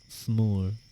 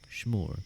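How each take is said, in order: First: The word begins with an 's' sound. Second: The word begins with an 'sh' sound. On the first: "S'more just sounds like you have a, a lisp" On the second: "I'm adding an S, a H there"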